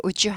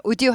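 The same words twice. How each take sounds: First: "would you" blended as woo-joo; "would you" with a smooth j; softened would you. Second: "would you" with a hard d, woo-dyoo; unblended would you. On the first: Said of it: "부드러운 발음이 난다". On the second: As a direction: hold d apart from j in "would you". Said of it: "would you 하지 않고". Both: Shown as a demonstration.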